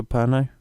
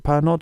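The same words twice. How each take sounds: First: "Pernod" the French way, ending in an open "oh"; silent final D. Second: "Pernod" with a hard sounded D at the end; final consonant sounded. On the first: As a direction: say "Pernod" as per-NOH, no final consonant. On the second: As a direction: say "Pernod" as spelt, closing on a T-like D. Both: Shown as a demonstration. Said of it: "Is it Pernod or Pernod?".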